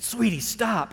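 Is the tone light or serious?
light. It is said lightly, almost teasingly.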